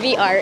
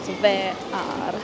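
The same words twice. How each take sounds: First: The letters are named with English pronunciation. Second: The letters are named with Finnish pronunciation. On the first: "V R in English" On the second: "Finnish pronunciation is V R"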